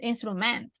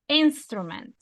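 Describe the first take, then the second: First: The stress is on the second syllable. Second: The stress is on the first syllable. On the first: The speaker calls it wrong. "No instrument" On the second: The speaker calls it right. "it's the first one, instrument"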